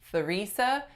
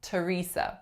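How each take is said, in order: First: It begins with a th sound. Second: It begins with an aspirated t sound. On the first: The speaker calls it wrong. "We do not say" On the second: The speaker calls it right. "make an aspirated syllable initial T sound"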